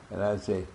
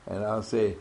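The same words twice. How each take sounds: The two takes are said the same way.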